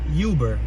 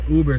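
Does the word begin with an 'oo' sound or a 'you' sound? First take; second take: you; oo. First: The word begins with a 'you' sound. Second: The word begins with an 'oo' sound. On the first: The speaker calls it right. "we pronounce it Uber. They say the word U" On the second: The speaker calls it wrong. "we don't pronounce it Uber Street like the ride"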